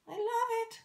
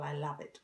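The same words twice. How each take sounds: First: Squeaky, much higher and louder; high squeal. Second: Said in the usual way. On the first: Shown as a demonstration.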